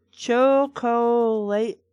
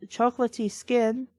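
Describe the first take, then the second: First: "chocolate" very slow, syllable by syllable; broken into syllables. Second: Said in the usual way. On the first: Shown as a demonstration. Reader showing the badly broken-up word, "chocolate" in slow separate syllables. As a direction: stretch out each syllable of "chocolate". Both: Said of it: "shouldn't have been broken up like that".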